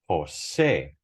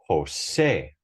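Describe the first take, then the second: First: The stress is on the last syllable. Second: The same.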